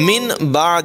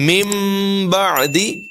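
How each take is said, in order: First: The first word ends with a plain n sound. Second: The first word ends with a nasal m sound. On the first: The speaker calls it wrong. "من بعد نہیں" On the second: The speaker calls it right. "نون کی آواز کو میم سے بدل دیا گیا"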